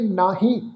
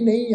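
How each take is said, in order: First: The first vowel is long, then an h sound. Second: The first vowel is short, with no h sound. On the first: The speaker calls it right. "ਇਹਦਾ ਉਚਾਰਨ ਕਰਾਂਗੇ ਨਾਹੀ" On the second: The speaker calls it wrong. "ਕਈ ਸੱਜਣ ਜਿਹੜਾ ਹੈ ਇਸ ਸ਼ਬਦ ਦਾ ਉਚਾਰਨ ਕਰਦੇ ਆ ਨਹੀਂ"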